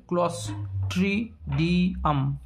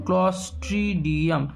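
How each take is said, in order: First: Spelled out slowly. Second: Slow, careful. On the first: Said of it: "spelling দেবে". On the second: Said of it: "spelling দেবে Clostridium". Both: Shown as a demonstration.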